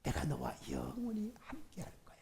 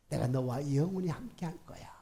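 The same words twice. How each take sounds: First: Tender, hushed whisper of God's promise; soft whisper. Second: Said in the usual way. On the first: Shown as a demonstration. Pastor voicing God's comfort to a congregation, whispered.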